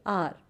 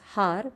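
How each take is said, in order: First: The word begins with a vowel, h silent. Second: The word begins with an audible h sound. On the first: The speaker calls it right. "where H is silent. ... we say R" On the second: The speaker calls it wrong. "We don't read it as har"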